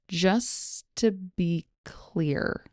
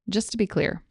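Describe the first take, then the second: First: The phrase is spoken slowly and carefully. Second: The phrase is spoken at normal conversational speed. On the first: "Here it is slowly" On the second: "Here it is at normal speed"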